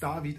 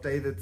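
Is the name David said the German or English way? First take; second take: German; English. First: The name is said with German vowels. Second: The name is said with English vowels. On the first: The speaker calls it right. "it's David" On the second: The speaker calls it wrong. "and not David"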